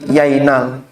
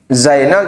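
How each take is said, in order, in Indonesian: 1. Kata ini diawali dengan bunyi y. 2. Kata ini diawali dengan bunyi z. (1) "Zainal jadi yainal" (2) "Zainal jadi yainal"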